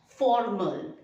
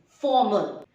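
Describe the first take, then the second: First: The R sound is clearly pronounced. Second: The R sound is silent. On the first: The speaker calls it wrong. "it is not formal" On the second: The speaker calls it right. "You don't pronounce the R. You consider the R as W"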